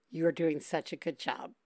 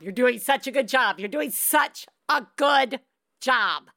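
First: Soft, low reassurance. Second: Emphatic reassurance. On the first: Host softly reassuring a crying caller. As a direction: gently tell her she's fine. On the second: Host firmly insisting to a tired mom. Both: Real, not acted.

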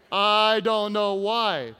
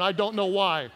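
First: Loud, slow, drawn-out repeat; mock bafflement. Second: Said in the usual way. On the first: Real, not acted. Preacher on women laughing nearby, loud mock bafflement. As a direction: stretch it out in feigned puzzlement.

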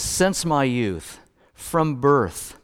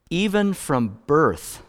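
First: Drawn out slowly, word by word; slow emphasis. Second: Stretched out, landing on even; slow emphasis. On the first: Pastor quoting verse five slowly to the congregation. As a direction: lean on each phrase slowly. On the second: Pastor repeating the verse slowly for emphasis. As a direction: dwell on Even, then let birth fall. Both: Shown as a demonstration. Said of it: "he says in verse five".

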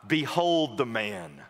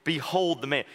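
First: Slow, weighty behold; solemn quote. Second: Behold tossed off, light and quick; dismissive pagan. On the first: Shown as a demonstration. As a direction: lean on behold, drawn out. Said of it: "this is a famous quote". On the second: Retold or imitated. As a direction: shrug it off like a scornful Roman. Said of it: "the meaning of the pagan".

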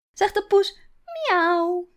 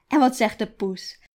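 First: High, loud sing-song cat sound; playful meow. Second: Said in the usual way. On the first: Acted. Grandmother meowing for Iris, high playful cat voice. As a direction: play the kitty for the toddler.

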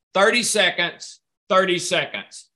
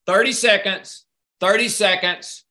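Both takes have the same delivery.

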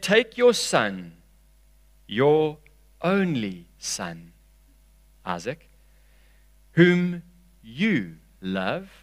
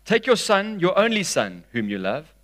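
First: Drawn-out words with pauses between phrases; deliberate, halting scripture reading for emphasis; slow, weighted reading. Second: Raised pitch falling through the phrase; projected reading without long pauses; scripture reading. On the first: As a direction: linger on each phrase of "only son". Slow reading pointing to familiar words. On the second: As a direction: read the verse onward in flowing phrases. Resumes reading the verse in flow. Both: A narrator's reading.

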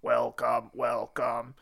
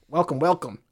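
First: Low, soft machine greeting; robot voice. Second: Stiff flat machine greeting; robot voice. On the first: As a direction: drone it like a robot. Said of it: "in a robot voice". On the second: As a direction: say it like a talking machine. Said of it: "said to me in a robot voice". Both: Retold or imitated.

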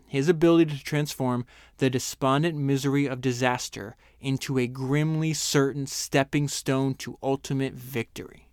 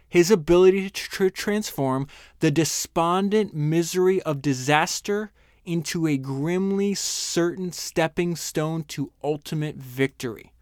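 First: Said in the usual way. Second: Slow, raised, savoring every word; slow emphatic reading. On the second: Shown as a demonstration. Host reads his favourite Churchill line aloud, slow and emphatic. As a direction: lean into each phrase slowly, building awe. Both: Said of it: "Let me read that again".

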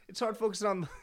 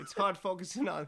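First: Breaking into laughter; laughing, barely holding it; laughing harder. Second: Cracking up mid-sentence; giggling through the words; laughing. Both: Real, not acted. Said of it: "hard to play these card games".

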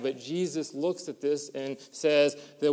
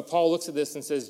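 First: Said in the usual way. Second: Paul stressed, firm fall; correcting Jesus to Paul with weight on Paul. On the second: Real, not acted. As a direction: land on Paul to fix the slip.

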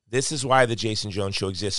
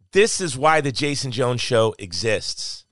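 First: Said in the usual way. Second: Slow, weighty stress on THIS and EXISTS; emphatic statement. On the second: Real, not acted. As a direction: land each part of "this is why" firmly and slowly. Emphatic first statement, then repeated.

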